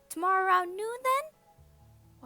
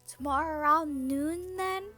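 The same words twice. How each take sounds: First: The voice is pitched very high. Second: The voice is pitched lower.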